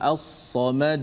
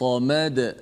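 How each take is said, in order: First: The final bounce is drawn out long. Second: The final bounce is short and clipped. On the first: The speaker calls it wrong. "dia panjangkan, itu tak boleh" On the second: The speaker calls it right. "itu saja"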